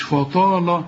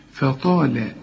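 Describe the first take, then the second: First: Slow, thickened fa and la in فطال; wrong heavy letters. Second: فطال thin at both ends, heavy taa; light faa and lam. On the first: Teacher shows what not to say, all heavy فطال. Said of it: "غلط". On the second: Teacher says look, light faa and lam in فطال. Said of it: "شوف". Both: Shown as a demonstration.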